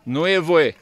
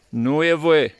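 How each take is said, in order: Both takes have the same delivery.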